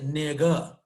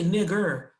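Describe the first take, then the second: First: The final r sound is dropped. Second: The final r sound is pronounced.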